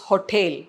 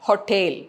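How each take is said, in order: No difference in how they are said.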